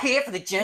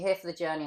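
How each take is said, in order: First: It is said forcefully with lots of energy. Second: It is said flatly with little energy. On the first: The speaker calls it right. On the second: The speaker calls it wrong.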